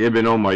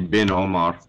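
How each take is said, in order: First: The first word starts with a vowel sound. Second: The first word starts with a b sound. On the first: The speaker calls it right. "then you would say Ibn Omar" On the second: The speaker calls it wrong. "You wouldn't say Bin Omar"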